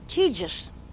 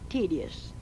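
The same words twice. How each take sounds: First: The word is said in an old-fashioned, folk way. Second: The word is said in the standard way. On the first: This is how older singers said it. "they always said tedious" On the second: This is how older singers did not say it. "not tedious"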